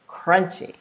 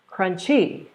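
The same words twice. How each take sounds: First: The stress is on the first syllable. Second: The stress is on the second syllable. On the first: The speaker calls it right. "Here's how it sounds correctly" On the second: The speaker calls it wrong. "I'm going to say it wrong just so you can hear the difference"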